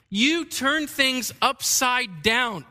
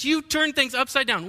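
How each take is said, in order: First: Slow, weighty, each word stressed; emphatic reading. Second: "You" stressed, phrase a bit higher; emphasis repeated. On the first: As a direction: read it slowly with emphasis. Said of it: "exclamation point, emphasis". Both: Shown as a demonstration.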